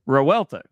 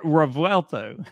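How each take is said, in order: First: The V sound in the middle is left out. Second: The V sound in the middle is clearly pronounced. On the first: The speaker calls it wrong. "You, you forgot the V" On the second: The speaker calls it right. "There you go"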